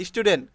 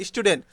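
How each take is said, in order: Both takes have the same delivery.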